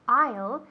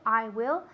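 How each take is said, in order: First: The two words merge into one short syllable. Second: Both words are said fully and separately. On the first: "always contracting" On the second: "always contracting"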